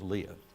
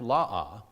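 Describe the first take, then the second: First: The name is said as Lee-ah. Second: The name is said as La-ah. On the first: This is the familiar English pronunciation. "I always remember it as Leah" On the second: This is the original Hebrew pronunciation. "it's pronounced La'ah, according to what I looked up"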